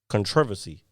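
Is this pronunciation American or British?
British. It is said in a British pronunciation. "they say uh, controversy"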